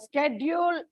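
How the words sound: The word is said the American way. "the Americans pronounce what they see. Like uh, uh, schedule is pronounced"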